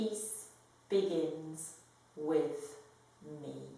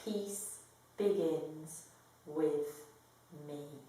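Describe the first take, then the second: The two takes are said the same way.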